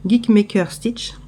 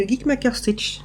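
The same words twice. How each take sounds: First: "Geek Maker Stitch" said slowly, each word distinct; slow careful name. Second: "Geek Maker Stitch" rushed and slurred together; rushed name. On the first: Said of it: "je le dis trop vite". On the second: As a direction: gabble "Geek Maker Stitch" too fast. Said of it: "je le dis trop vite, je crois, et je, j'écorche le nom". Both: Shown as a demonstration.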